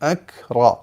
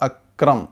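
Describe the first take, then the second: First: The k is released with a break before r. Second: The k runs smoothly into the r. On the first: The speaker calls it right. "അറബിയിൽ അങ്ങനെ അല്ല, അക് റോ ഇങ്ങനെയാണ് വരിക" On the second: The speaker calls it wrong. "Malabari സ്വരത്തിലേക്ക് കാഫ് പോവുക"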